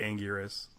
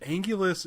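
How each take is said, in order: First: The middle consonant is an R sound. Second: The middle consonant is an L sound. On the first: "spelled with a R, so it should be Angurus" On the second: "sometimes they pronounce it with an L"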